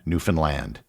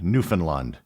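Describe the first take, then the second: First: The last syllable is stressed, rhyming with understand. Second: The middle syllable is stressed, not rhyming with understand. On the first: The speaker calls it right. "The key was the simple rhyme, understand Newfoundland" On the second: The speaker calls it wrong. "It is not pronounced as it would be in the rhyme"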